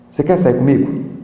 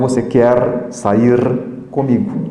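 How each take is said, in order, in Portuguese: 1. Os sons do r final são apagados. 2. Os sons do r final são claramente pronunciados. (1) "nós cortamos a consoante final" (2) "E não"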